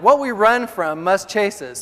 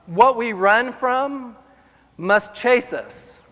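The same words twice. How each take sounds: First: Said in the usual way. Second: Very slow, each word weighed; slow emphatic. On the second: Shown as a demonstration. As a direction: deliver it like a maxim, slowly.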